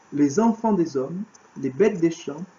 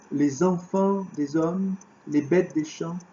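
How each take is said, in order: Both takes have the same delivery.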